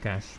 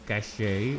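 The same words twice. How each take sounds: First: The word is said with one syllable. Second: The word is said with two syllables. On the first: The speaker calls it right. "I think it's just cache, but, you know, not the Johnny kind" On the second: The speaker calls it wrong. "I've heard people pronounce it as cache, and I think that's wrong"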